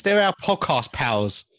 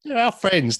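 First: "They're" stressed, whole line slowed; slow, stressed correction. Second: "our" stressed high and loud. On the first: Host correcting co-host, slow and emphatic. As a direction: drag out "They're our podcast pals" for emphasis. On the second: Correcting a friend's wording, stressing "our". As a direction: punch the word "our" in "They're our friends". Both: Shown as a demonstration.

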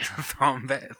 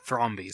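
First: "Thrombey" slipped out as THROM-bay; Thrombey ending in "bay". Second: "Thrombey" corrected to THROM-bee; Thrombey ending in "bee". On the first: Host repeats the slip, "Thrombey" said as THROM-bay. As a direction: end "Thrombey" on an "ay" sound. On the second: Host corrects the slip, "Thrombey" said as THROM-bee. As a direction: end "Thrombey" on an "ee" sound. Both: Real, not acted. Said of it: "Thrombey, sorry".

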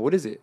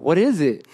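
First: Said in the usual way. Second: "What is it?" pitched up and louder; mock-impatient repeat of "What is it?"; insistent question. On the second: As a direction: press harder on "What is it?". Repeats question, pressing for answer.

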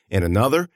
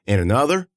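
No difference in how they are said.

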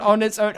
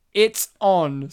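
First: Said in the usual way. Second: "own" with a short open vowel, like "on". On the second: Shown as a demonstration. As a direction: say "own" exactly like the word "on". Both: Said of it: "Sorry, not on its own".

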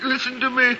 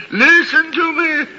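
First: Urgent pleading, pitched high; frightened plea to the ghost. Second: Louder, higher desperate cry; frantic plea to the ghost; desperate pleading. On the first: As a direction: beg the spirit to listen. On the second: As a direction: beg the spirit to listen with rising panic. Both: Acted.

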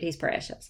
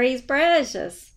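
First: Said in the usual way. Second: Slow, adoring coo; doting. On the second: Real, not acted. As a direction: gush over the cute dog.

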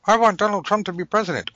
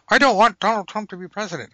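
First: High, fast mock wish; high fast pretend wish. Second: High, fast mock counter-wish; high fast pretend counter-wish. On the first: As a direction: chirp the wish like a spell. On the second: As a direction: chirp the opposite wish just as eagerly.

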